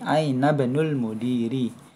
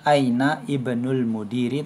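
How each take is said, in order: First: The i of ibnul is dropped and linked. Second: The i of ibnul is pronounced separately. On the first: The speaker calls it right. "tapi aina banul mudiri" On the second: The speaker calls it wrong. "bukan dibaca aina ibnul mudiri"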